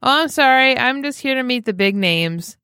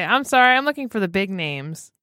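First: Retold loud voice. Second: Mock indignant quote. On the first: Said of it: "a very loud voice". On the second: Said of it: "the audacity for one thing to say".

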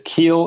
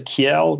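First: Kiel said as one syllable, "keel"; alternative pronunciation. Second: Kiel said in two syllables, "kee-EL"; own pronunciation. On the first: Guest shows how others might read his username, Kiel as "keel". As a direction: say Kiel to rhyme with "feel". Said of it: "You might pronounce it as". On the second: Guest explains his username his own way, Kiel as "kee-EL". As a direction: say Kiel with a second beat, ending "-el". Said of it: "I say it as". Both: Shown as a demonstration.

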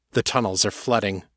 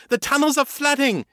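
First: Understated worried warning; calm voice with a hint of tension; tight with alarm. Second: Very high, frantic cry of warning; angry terrified shout. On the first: A narrator's reading. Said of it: "his own voice tight with alarm". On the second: Acted. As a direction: yell the warning in desperation. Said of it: "her voice full of anger and terror".

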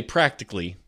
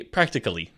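First: "practically" in four quick syllables, American style; American pronunciation. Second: "practically" with the full "-cally" crisp, British style; British pronunciation. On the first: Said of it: "you and I would say". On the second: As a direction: say "practically" as Xander would. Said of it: "Xander would say". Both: Shown as a demonstration.

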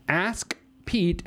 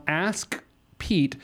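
First: Said in the usual way. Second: "Ask" with a hard, popped K. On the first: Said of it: "I wouldn't do it that hard". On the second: Real, not acted. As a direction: hit the K at the end of "Ask" hard. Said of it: "I wouldn't do it that hard if it was a C".

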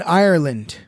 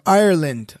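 First: Said in the usual way. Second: Ireland in an attempted Irish accent, a bit punched; poor Irish accent. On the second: Shown as a demonstration. Host tells co-hosts about Saint Patrick, attempted Irish accent. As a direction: say Ireland with a badly faked Irish lilt. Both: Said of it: "I don't have a good Irish accent".

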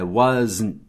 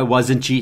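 First: "wasn't" terminando em zn, sem vogal final; wasn't em duas sílabas. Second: "wasn't" com vogal extra no fim, uózentchi; wasn't errado, com "tchi". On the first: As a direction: diga "wasn't" como was-zn, fechando no N. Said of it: "É wasn't". ("wasn't" correto, com final seco em zn) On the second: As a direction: imite o sotaque brasileiro: "wasn't" terminando em tchi. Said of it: "Não é wasn't". ("wasn't" aportuguesado, com tchi final) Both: Shown as a demonstration.

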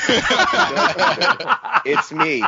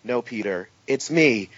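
First: High, slow, breaking into laughter; laughing through the line. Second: Flat deadpan reply. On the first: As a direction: try to say it and crack up. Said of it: "running gag repeat". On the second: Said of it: "running gag of impostors". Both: Retold or imitated.

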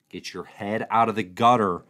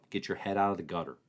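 First: Louder, stressing "out" in mock reproach; playful louder rebuke; louder mock scold. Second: Fast, softer tease to himself; mock self-reprimand; quick scolding aside. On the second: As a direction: mutter the rebuke under his breath.

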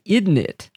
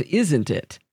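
First: "Isn't it?" with a d sound, like "idn it"; family isn't it. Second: "Isn't it?" with a clear z, "izzent it"; standard isn't it. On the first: Sharing a family habit with a cohost, "Isn't it?" as "idn it". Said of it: "I noticed ... that I say". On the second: Contrasting with the family habit, "Isn't it?" with a clear z. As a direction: say "Isn't it?" the standard way, z fully sounded. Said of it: "instead of". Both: Shown as a demonstration.

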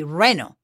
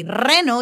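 First: Reno with an English untrilled R; English-accented reno, no roll; English speaker accent. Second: Reno with a trilled R; rolled Spanish R. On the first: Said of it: "that's the English speaker accent". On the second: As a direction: roll the R to start reno. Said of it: "If you cannot say reno". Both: Shown as a demonstration.

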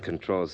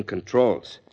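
First: Said in the usual way. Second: CONTROLS said with firm emphasis; stress on CONTROLS. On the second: Acted. Campaign manager warns candidate about a rival's grip, CONTROLS stressed. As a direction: lean on the word CONTROLS. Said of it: "and I mean controls".

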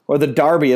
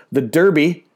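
First: "Derby" said "Darby", open ah; "Derby" as the English say it, "Dar-bee"; British pronunciation. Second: "Derby" with a "der" like "dirt"; Derby said the American way. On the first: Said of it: "as they call it". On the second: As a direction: say "Derby" rhyming with "herby". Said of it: "or the Derby as they call it". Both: Shown as a demonstration.

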